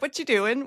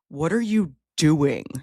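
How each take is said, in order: First: It sounds relaxed, like a casual greeting. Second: It sounds demanding, like an interrogation. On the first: The speaker is simply saying hello. "that's just say how you say hello" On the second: The speaker is demanding an explanation. "Because if you say it like"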